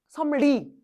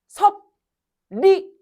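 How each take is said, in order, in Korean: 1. 앞쪽 가운데 자음 하나만 바뀌어요. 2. 가운데 자음 둘 다 쓰인 대로 발음해요. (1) "섬리 이거 되게 이렇게 의도하고 발음해야 되지 않아?" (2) "섭리 이렇게 발음하는 사람 없어"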